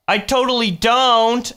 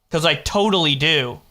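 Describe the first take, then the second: First: High, loud protest I totally don't; indignant denial. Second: Said in the usual way. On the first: Real, not acted. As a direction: stress on don't, pitched up. Denying, voice jumps up.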